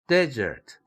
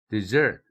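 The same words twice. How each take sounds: First: The stress is on the first syllable. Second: The stress is on the second syllable. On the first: It names a barren dry land. "첫 음절일 때에는 때 이렇게 액센트가 되죠" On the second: It means to abandon and leave. "그러나 두 번째 음절일 때는"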